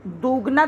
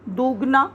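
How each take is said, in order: First: दुगना with the u wrongly stretched long; दुगना, mistaken long oo. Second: दुगना, long vowel, marked wrong. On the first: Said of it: "दुगना तो नहीं बोलते". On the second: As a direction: stretch दुगना to show the error. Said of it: "तो इसलिए ये गलत है". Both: Shown as a demonstration.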